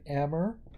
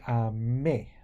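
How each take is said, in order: First: The ending does not sound like 'ay'. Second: The ending sounds like 'ay'. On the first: The speaker calls it wrong. "we're not saying aimer" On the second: The speaker calls it right. "That E R is pronounced like a E with an accent aigu"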